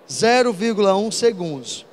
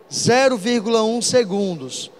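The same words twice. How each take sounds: The two takes are said the same way.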